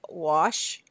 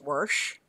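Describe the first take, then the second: First: It is said without an r sound. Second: It is said with an added r, Minnesota style.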